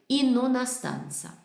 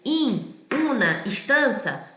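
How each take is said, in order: First: The words are joined like a single word. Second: Each word is said separately, without linking. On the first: "se transforma em in una stanza" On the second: "em português eu diria in una stanza"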